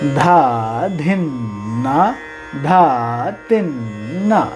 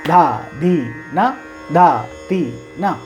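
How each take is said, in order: First: The syllables flow together without breaks. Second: Each syllable is cut off separately. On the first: The speaker calls it right. "Joint होना चाहिए" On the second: The speaker calls it wrong. "ऐसे cut cut करके आप बोलोगे तो सही है, मगर वो एक फील नहीं आता है"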